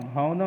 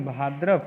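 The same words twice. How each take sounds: First: भौदव as "bhau-dav"; teacher voicing भौदव without the dr cluster; wrong form. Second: भाद्रव as "bhaa-drav"; correct form. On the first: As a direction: open भौदव on au, with no r. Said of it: "नहीं". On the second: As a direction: sound dr after a long a in भाद्रव. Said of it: "होता है". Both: Shown as a demonstration.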